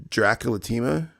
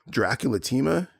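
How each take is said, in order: Both takes have the same delivery.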